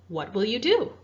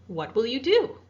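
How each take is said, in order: Both takes have the same delivery.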